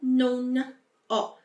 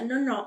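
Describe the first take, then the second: First: The two words are said apart with a break. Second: The two words are run together without a break. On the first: The speaker calls it wrong. "e não non ho" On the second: The speaker calls it right. "juntou, tá bom? A pronúncia, non ho"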